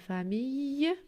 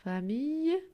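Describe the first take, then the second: First: The ending is said with a Y sound. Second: The same.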